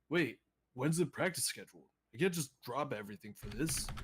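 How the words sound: It is said with a worried, expressive voice. The speaker calls it right. "he actually can't be concerned"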